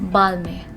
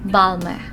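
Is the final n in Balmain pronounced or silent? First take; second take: silent; silent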